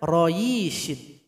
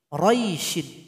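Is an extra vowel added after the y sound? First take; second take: yes; no. First: An extra i vowel follows the y sound. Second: No extra vowel follows the y sound. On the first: The speaker calls it wrong. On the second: The speaker calls it right.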